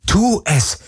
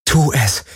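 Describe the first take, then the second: First: High, desperate inner cry; inner scream. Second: Raised, contained inner urging; will yourself to act; urgent thought. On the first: Heroine to herself at gunpoint, screaming inwardly. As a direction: urge yourself in a high, contained scream. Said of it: "schrie alles in ihr". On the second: Captive heroine to herself, thinking urgently. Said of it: "dachte sie". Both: Acted.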